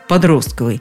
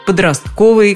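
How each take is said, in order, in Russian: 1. Ударение на втором слоге. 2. Ударение на третьем слоге. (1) "предлагали нам исключительно вариант «подростковый»" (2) "ставить ударение на третье «о» в слове «подростковый»"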